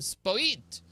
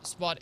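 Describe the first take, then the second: First: The name is said in a posh, fancy way. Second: The name is said in a plain, ordinary way.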